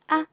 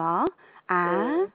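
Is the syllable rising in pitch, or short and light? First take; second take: short light; rising. First: The syllable is short and light. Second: The pitch rises through the syllable. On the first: "경선은 짧게, 가볍게" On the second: "2성은 아. 이런 느낌으로 아"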